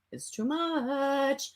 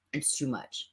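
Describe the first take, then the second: First: Slow, drawn-out "It's too much."; exasperated and slow. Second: Said in the usual way. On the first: Real, not acted. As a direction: stretch every word in disbelief.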